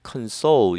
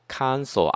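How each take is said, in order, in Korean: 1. 강세는 두 번째 음절에 있어요. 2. 강세는 첫 번째 음절에 있어요. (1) "명사를 쓸 때는 console 이러면 안 되고" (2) "console 앞에 강세가 와야 돼"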